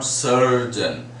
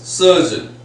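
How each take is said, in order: First: The r sound is pronounced after the vowel. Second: The r sound is silent after the vowel. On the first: The speaker calls it wrong. "It's not surgeon" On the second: The speaker calls it right. "it is surgeon"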